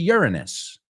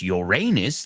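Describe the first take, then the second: First: The word begins like 'urine'. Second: The word does not begin like 'urine'. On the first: It sounds less rude. The speaker calls it right. "Urine, orina. Okay, sounds better" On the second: It sounds rude. The speaker calls it wrong. "That sounds like disgusting"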